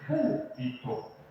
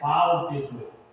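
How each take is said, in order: First: The first vowel sounds like 'u'. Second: The first vowel sounds like 'a'. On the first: The speaker calls it right. "Deveria dizer púlpito" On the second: The speaker calls it wrong. "Era sobre algo que eu tinha pronunciado errado"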